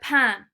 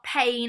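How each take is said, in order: First: It has a nasal French vowel. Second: It sounds like the English word pain. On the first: The speaker calls it right. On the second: The speaker calls it wrong.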